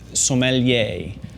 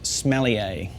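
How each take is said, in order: First: It sounds like som-uh-lee-ay. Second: It sounds like the word smellier. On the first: The speaker calls it right. "The way to say it is" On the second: The speaker calls it wrong. "the second way not to pronounce it"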